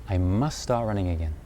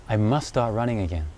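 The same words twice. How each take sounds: The two takes are said the same way.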